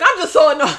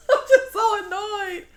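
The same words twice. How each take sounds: First: Louder, exasperated I'm just so annoyed; annoyed I'm, stressed hard. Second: High, laughing I'm just so annoyed; giggling annoyed repeat. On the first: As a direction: blurt it out fed up. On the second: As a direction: laugh it out in disbelief. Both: Real, not acted.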